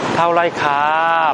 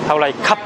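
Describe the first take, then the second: First: The final syllable is stretched out softly. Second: The final syllable is cut off abruptly. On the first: It sounds like a woman is speaking. The speaker calls it wrong. "좀 친절하게 한다고 타올라이 캅 하면은 여자인 줄 알아요" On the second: It sounds like a man is speaking. The speaker calls it right. "타올라이 캅 하고 끊어야 돼"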